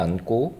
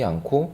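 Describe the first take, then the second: First: The second consonant is a plain, unaspirated g. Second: The second consonant is an aspirated k. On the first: "첫 번째는 안고이고" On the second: "두 번째는 안코라고 발음을 했네요"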